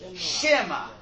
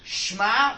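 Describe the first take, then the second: First: A short vowel separates the first two consonants. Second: The first two consonants run together with no vowel. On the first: The speaker calls it right. "but it's shema. It's a shva na" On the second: The speaker calls it wrong. "the word is not shma"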